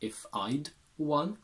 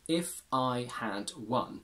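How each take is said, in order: First: The word had is contracted to a d sound. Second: The word had is said fully and clearly.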